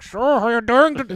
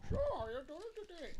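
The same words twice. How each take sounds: First: Much louder blasting version; loud mock line. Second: High, soft and fast mimicked line; quiet mock line. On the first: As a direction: mimic the booming mix. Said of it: "the rest of the movie's like". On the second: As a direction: mimic the barely audible opening dialogue. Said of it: "the beginning of the movie".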